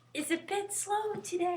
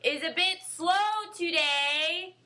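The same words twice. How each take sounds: First: It is said too softly. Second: It is said too loudly.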